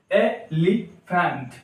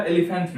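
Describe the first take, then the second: First: elephant slowly as e, li, phant; three separate beats in elephant; syllable by syllable. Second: Said in the usual way. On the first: Shown as a demonstration. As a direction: pause after each syllable of elephant. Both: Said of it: "तीन syllable हो गया".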